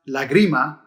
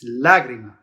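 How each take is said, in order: First: The stress falls on a later syllable. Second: The stress falls on the first syllable. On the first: The speaker calls it wrong. "It's not lagrima" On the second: The speaker calls it right. "it tells you to stress the first syllable"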